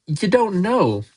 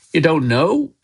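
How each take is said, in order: First: High swoop that falls at the end; stunned repetition. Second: Higher, astonished rising question; disbelieving question. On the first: Hagrid taking in Harry's ignorance, stunned. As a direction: repeat it as it sinks in. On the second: Hagrid learning Harry knows nothing, disbelieving. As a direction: ask it as if it can't be true. Giant astonished by boy's ignorance. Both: A narrator's reading.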